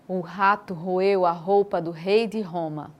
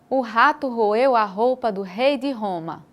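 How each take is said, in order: First: The voice is pitched somewhat lower. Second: The voice is pitched somewhat higher. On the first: "Da primeira vez um pouco mais grave" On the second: "da segunda vez um pouco mais agudo"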